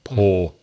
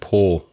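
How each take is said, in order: Both takes have the same delivery.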